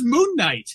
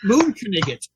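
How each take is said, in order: First: Knight is said as one syllable, k silent. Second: Knight is said with two syllables, sounding the k. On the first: It is the usual way people say the name. "I thought it was Moon Knight" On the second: It is claimed to be the Egyptian pronunciation. "it's pronounced Moon Knigget"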